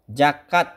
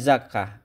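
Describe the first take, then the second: First: The word ends with a t sound. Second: The word ends with an h sound. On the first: The form was borrowed through Persian. "dibacanya te" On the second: The form follows the Arabic ending. "harusnya zakah"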